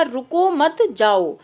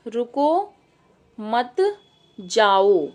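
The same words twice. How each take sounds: First: रुको मत जाओ run together in one phrase, falling on जाओ; joined intonation demo. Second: रुको, मत and जाओ said apart, each after a pause; रुको rising, pause, मत, pause, जाओ falling low; intonation demo. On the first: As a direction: say रुको मत जाओ without long pauses, voice dropping at the end. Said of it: "तो हमने क्या कहा". (रुको मत जाओ को एक साथ बोलें, अंत में सुर नीचे) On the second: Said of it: "देखो मैं एक आपको बताती हूँ". (रुको, मत, जाओ को रुक-रुक कर अलग बोलें) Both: Shown as a demonstration.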